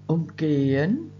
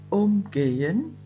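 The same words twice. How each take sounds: First: The stress is on the second syllable. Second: The stress is on the first syllable. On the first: To walk around something in an arc. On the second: To treat someone or something in some way. "Umgehen mit betonter Vorsilbe"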